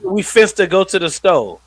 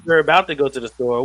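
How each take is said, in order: First: Higher, louder AAVE with "store" as "sto"; exaggerated AAVE example; hood slang. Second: Said in the usual way. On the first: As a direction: imitate a mom teaching Ebonics, punched up. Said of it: "trying to teach her daughter to talk like a hood nigga".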